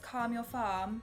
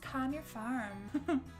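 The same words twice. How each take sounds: First: It is said in a British accent. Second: It is said in an American accent. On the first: "Like British" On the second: "What American would that work?"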